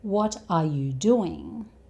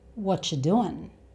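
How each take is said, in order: First: Every word is pronounced fully and separately. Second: The words are squeezed into two reduced sounds. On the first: "These four words" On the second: "become two"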